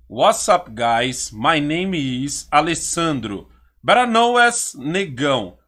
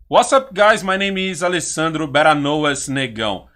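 First: It is spoken slowly and deliberately. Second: It is spoken at a normal, quicker pace.

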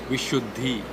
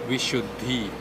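No difference in how they are said.

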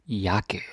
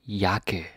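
The two takes are said the same way.

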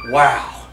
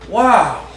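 First: The word is said with mild emphasis. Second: The word is said with strong emphasis.

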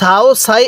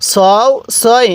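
First: The syllables sound light and thin, like plain s. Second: The syllables sound heavy and full, with emphatic s. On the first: The speaker calls it wrong. "কেউ কেউ সাও সাই এরকমভাবে পড়বেন না।" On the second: The speaker calls it right. "সতওয়াও জবর সও, সতিয়া জবর সই"

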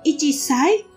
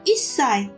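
First: The syllable chi is said before sai. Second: Chi is dropped and the s is held. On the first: The speaker calls it wrong. "bukan ichisai" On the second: The speaker calls it right. "tapi jadinya isai"

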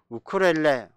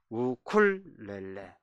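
First: The second L sound is left out. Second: The second L sound is clearly pronounced. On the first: The speaker calls it wrong. "우리는 주로 우쿨렐레, 우쿨렐레 이렇게 얘기 두 번째 그 리얼을 빼버리는데" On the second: The speaker calls it right. "정확한 표기는 우쿨렐레"

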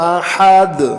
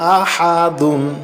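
First: The word ends abruptly on a bare -d. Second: The word ends with a full -dun ending. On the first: The reader stops at this word. "কিন্তু আমি আহাদ বললাম কারণ হলো আরবি পড়ার সময় কোনো হরফে থামতে চাইলে" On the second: The reading continues without a stop. "দাল দুই পেশ দুন"

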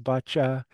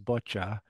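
First: The word is said in a French accent. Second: The word is said in a British accent. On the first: "maybe a French accent is boccia" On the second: "or even maybe a British accent is boccia"

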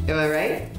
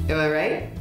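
The two takes are said the same way.

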